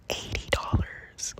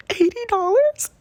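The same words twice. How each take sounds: First: Slow, breathy whisper; whispered price. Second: Squeaky, much higher, louder rising question; shocked disbelief. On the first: The reader naming his fee, slow whisper. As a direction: whisper the price as if it's a secret. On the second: Hearing the reading costs eighty dollars, high shocked squeal. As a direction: shriek the price back in disbelief. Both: Retold or imitated.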